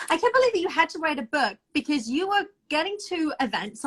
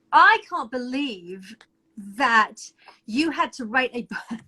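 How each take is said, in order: First: Said in the usual way. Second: I can't believe, then a pause before that and you had to write a book, slow and weighty; slow, paused emphasis. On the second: Shown as a demonstration. Co-host marvelling that she had to write a book, slow stressed disbelief.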